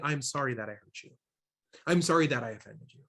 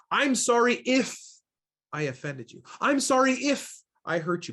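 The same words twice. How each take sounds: First: Lower, softer, genuine apology; mean it, own the hurt gently; sincere apology. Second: Higher, breezy deflecting apology that dodges blame; hollow non-apology. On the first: Shown as a demonstration. Trainer modeling a real apology to someone hurt, sincere and soft. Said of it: "That is an expression of empathy". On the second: Retold or imitated. Trainer mimicking people who dodge blame, offhand apology. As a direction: toss it off like a brush-off. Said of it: "Basically putting the onus back on them".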